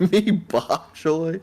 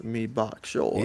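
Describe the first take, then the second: First: Put-on very slow, drawn-out Jamaican accent; mock Jamaican accent. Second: Softer, slow mock Jamaican "Me bok choy"; quiet Jamaican accent. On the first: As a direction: stretch it out like a bad Jamaican impression. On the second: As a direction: mumble the Jamaican line back. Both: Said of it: "in a Jamaican accent".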